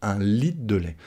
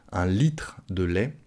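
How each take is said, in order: First: "litre" said as "lit'" before "de lait"; swallowed re. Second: "litre" with its r sounded, unhurried; full pronunciation. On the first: Teacher isolates the fast spoken form, re swallowed. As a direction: drop the r of "litre". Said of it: "quand on parle vite". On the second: Teacher clarifies the bottle of milk, re pronounced. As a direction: articulate the tr in "litre de lait". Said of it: "Vous avez compris, c'est". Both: Shown as a demonstration.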